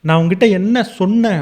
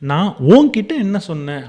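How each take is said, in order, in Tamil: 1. அழுத்தம் 'சொன்னேன்'ங்கிற வார்த்தைக்கு விழுது. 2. அழுத்தம் 'உன்'னு சொல்ற வார்த்தைக்கு விழுது. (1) "நான் உன்கிட்ட சொன்னத நீ காது குடுத்து கேட்கவே இல்ல" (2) "நான் உங்கள ஸ்ட்ரெஸ் பண்ணி"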